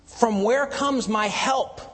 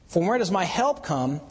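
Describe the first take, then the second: First: "where" drawn out, slower and higher; slow literal reading. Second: Said in the usual way. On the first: Shown as a demonstration. Preacher reading the Hebrew order to the congregation, slow and stressed. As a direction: read it word for word, leaning on "where". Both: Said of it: "actually reads".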